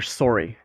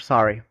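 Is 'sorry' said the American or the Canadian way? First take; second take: Canadian; American. First: Sorry is said with a Canadian pronunciation. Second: Sorry is said with an American pronunciation. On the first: "Canadians are sorry" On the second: "Americans are sorry"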